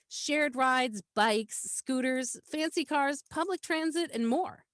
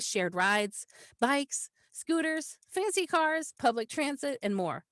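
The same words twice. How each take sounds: First: The list items flow together without long pauses. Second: Each list item is separated by a long pause. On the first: The items form one idea that is easy to absorb. The speaker calls it right. "you've also combined them together, right? You didn't break in between those commas" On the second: The items feel like separate, disconnected ideas. The speaker calls it wrong. "I wouldn't break up"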